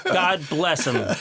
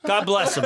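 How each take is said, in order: First: Slow, laughing fond blessing. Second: Said in the usual way. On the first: Real, not acted. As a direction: chuckle it out slowly. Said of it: "repeated slower with laugh". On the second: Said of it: "repeated phrase, different delivery".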